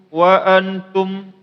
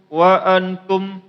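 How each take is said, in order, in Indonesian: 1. Dengungnya ditahan sangat pendek. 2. Dengungnya ditahan sangat pendek.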